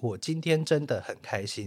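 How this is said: It is said in a flat, toneless way.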